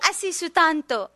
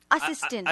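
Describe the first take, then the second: First: The word is said with Japanese katakana pronunciation. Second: The word is said with English-style pronunciation. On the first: "日本人がアシスタント何が言ってるんですよ…足の下みたいの、足スタント言ってるんですよ" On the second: "私たち、アシスタント言ってるんですよね"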